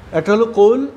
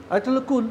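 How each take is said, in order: First: কুল said louder with a rise; প্রথম কুল জোরে; first kul. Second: কুল said softer with a falling tune; দ্বিতীয় কুল নরম; second kul. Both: Shown as a demonstration. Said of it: "যে কাউকে যদি বলি".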